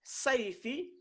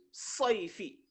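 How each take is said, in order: First: "Saifi" with open first A, higher and rising; plain A reading. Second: "soifi" with rounded first O, falling; emphatic O reading. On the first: Teacher contrasting two words for pupils, open rising "Saifi". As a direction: raise "Saifi", starting on a clear A. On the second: Teacher contrasting two words for pupils, rounded falling "soifi". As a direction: drop "soifi", starting on a full O. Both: Shown as a demonstration. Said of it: "la différence".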